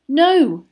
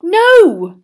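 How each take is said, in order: First: Higher, louder single word; simple denial. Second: High, loud, emphatic denial; vehement. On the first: Acted. Boy answering the headmaster, simple denial. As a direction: straight denial, moderately raised. Harry's first, plainer denial. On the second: A narrator's reading. Boy denying he asked an older student, vehemently. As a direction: burst out with it forcefully. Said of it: "said Harry vehemently".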